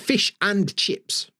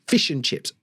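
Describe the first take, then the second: First: The 'and' is said fully with its vowel. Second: The 'and' is reduced to a short 'n'. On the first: The speaker calls it wrong. "I don't say" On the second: The speaker calls it right. "n, n, n"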